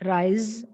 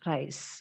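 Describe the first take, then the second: First: The word ends with a buzzing z sound. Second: The word ends with a hissing s sound. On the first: The speaker calls it right. "The word should end with the sound z" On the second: The speaker calls it wrong. "It is not rise. S അല്ല"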